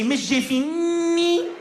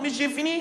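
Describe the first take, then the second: First: The N sound in the name is emphasized. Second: The N sound in the name is plain. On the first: The speaker calls it right. "you have to put an emphasis whenever there's a letter N" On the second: The speaker calls it wrong. "You're just saying it wrong"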